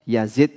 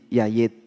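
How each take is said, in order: First: The middle consonant is a z sound. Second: The middle consonant is a y sound. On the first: The speaker calls it right. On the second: The speaker calls it wrong.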